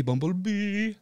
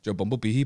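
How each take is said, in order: First: Bumblebee jumped up high in pitch. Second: Said in the usual way. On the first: Shown as a demonstration. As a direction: sing Bumblebee much higher. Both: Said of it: "like that".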